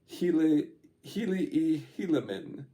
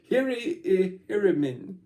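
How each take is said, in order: First: The name is said with L sounds. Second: The name is said with R sounds. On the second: This is the Egyptian form, which has no L. "the Japanese pronunciation or the Egyptian pronunciation"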